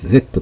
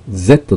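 First: The letter is said the English way. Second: The letter is said the non-English way. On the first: The speaker calls it right. "Z と言いますね" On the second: The speaker calls it wrong. "Z と言わずに"

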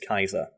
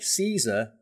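First: The name begins with a hard K sound. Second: The name begins with a soft S sound. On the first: This is the original Latin pronunciation. The speaker calls it right. "which is the correct pronunciation" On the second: This is the familiar pop-culture pronunciation. The speaker calls it wrong. "if you say Caesar, weirdos who know it's pronounced that will correct you"

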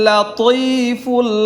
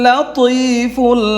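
No difference in how they are said.

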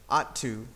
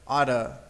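First: The word 'to' is said in full with a clear 'oo' vowel. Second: The word 'to' is reduced to a short 'a' sound. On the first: "say it with me, ought to" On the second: "Some people say oughta"

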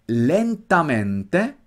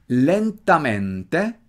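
Both takes have the same delivery.

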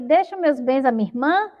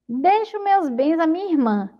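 First: It is asked as a question, rising. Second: It is said as a statement, not rising.

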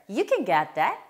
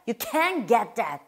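First: The word can is short and weak. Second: The word can is long and stressed.

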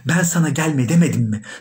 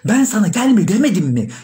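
First: The question is said at a normal volume. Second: The question is said with a raised voice.

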